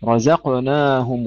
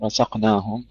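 First: رزقناهم with a buzzing z and a two-count long alef; correct light zay. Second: رزقناهم said with an s sound for the ز; zay as sin. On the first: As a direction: voice the ز in رزقناهم clearly and lengthen the آ after ن. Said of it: "ومد الألف حركتين". (نطق «رزقناهم» بزاي واضحة ومد الألف حركتين) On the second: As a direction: turn the ز of رزقناهم into a hissed س. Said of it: "الزاي الآن جعلتها سينا". (نطق الزاي سينًا في «رزقناهم») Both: Shown as a demonstration.

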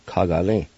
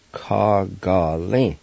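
First: Said in the usual way. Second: "Ka Ga Lin" slowly, syllables drawn out; slow pronunciation. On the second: Shown as a demonstration. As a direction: stretch each syllable of "Ka Ga Lin". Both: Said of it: "It's pronounced like this".

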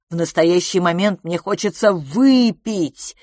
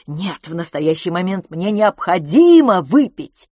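First: Slow, drawn-out выпить with a falling tone; stress on ВЫПИТЬ. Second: Slow, loud, stretched необходимо; stress on НЕОБХОДИМО. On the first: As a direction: lean long and hard on выпить. Insistent demand, then restated stronger. (с нажимом, протяжно на слове «выпить») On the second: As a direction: correct yourself, punching необходимо. Restates the demand more strongly. (с сильным нажимом на слове «необходимо») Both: A narrator's reading.

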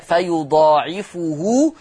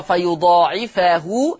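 First: Recited فيضاعفه as fa-yudaa'ifu-hu; damma on fa. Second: Recited فيضاعفه as fa-yudaa'ifa-hu; fatha on fa. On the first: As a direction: round the last fa of فيضاعفه into "fu". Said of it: "فيقرأ بضم الفاء". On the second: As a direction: open the last fa of فيضاعفه into "fa". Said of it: "يقرأ بفتح الفاء". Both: Shown as a demonstration.

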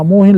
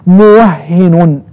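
First: موهن said quickly as muuhin; single h in موهن. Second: موهن slowly as muwahhinun; doubled h in موهن. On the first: Teacher quoting the earlier slip, موهن without doubling. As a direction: give موهن a long u and single h. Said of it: "لا، هي صحيح موهن". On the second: Teacher correcting themselves, doubled h in موهن. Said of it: "يعني بالتشديد". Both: Shown as a demonstration.

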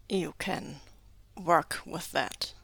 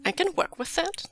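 First: Slow, lowish and measured; slow, doubtful echo. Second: High, lilting reply with a rise at the end; light agreement. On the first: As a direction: echo it slowly, as if unsure of trusting. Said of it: "says slowly in the tone of a man who maybe should not be so trusted". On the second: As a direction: agree lightly, pitched well up. Character agrees finally, unworried. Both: A narrator's reading.

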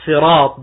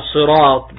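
First: صراط begun with a light Arabic س in place of ص; slow صراط with a light Sin; plain Sin pronunciation. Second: صراط begun with a heavy, emphatic Arabic ص; slow صراط with the thick Sad; emphatic Sad pronunciation. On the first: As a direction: say صراط as sirat, with a thin, plain s. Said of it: "ويقال صراط بالسين". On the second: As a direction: say صراط with a dark, pharyngealized s. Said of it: "يقال صراط بالصاد". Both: Shown as a demonstration.

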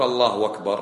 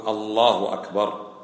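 First: الله أكبر said as allahu wakbar, with a waw; the wrong way: الله أكبر with an added w; الله أكبر, mistaken wakbar; wrong waw form. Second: الله أكبر slow, allahu akbar with no waw; الله أكبر, correct and unhurried; correct takbir. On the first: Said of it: "فلا تقول". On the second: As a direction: say الله أكبر slowly and cleanly, no w. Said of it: "قل". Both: Shown as a demonstration.

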